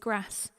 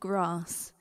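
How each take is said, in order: First: The word is said with a northern accent. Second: The word is said without a northern accent. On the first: This is how the speaker's family says it. "my parents both say grass" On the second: This is how the speaker's family does not say it. "not grass"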